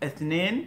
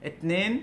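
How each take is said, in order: Both takes have the same delivery.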